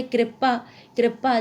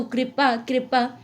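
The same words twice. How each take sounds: First: कृपा said as kre-paa; Western Hindi re. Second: कृपा said as kri-paa; Eastern Hindi ri. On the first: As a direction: open the vowel after r in कृपा. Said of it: "री का उच्चारण रे की भांति". (कृपा में रे जैसी ध्वनि) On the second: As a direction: give कृपा a clear i after r. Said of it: "री का उच्चारण प्राय री". (कृपा में रि की ध्वनि) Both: Shown as a demonstration.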